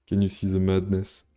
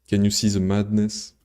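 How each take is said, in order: Both takes have the same delivery.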